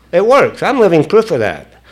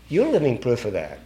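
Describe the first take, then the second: First: Higher, punchy "I'm living proof"; emphatic testifying. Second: Soft, falling "You're living proof"; quiet affirmation. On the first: Speaker testifying that the program works, emphatic. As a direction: declare "I'm living proof" with force and raised pitch. Testifies, then turns it on listeners. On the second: Speaker turning the testimony to the listeners, quiet affirmation. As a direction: hand "You're living proof" over softly. Same words turned gently on listeners. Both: Real, not acted.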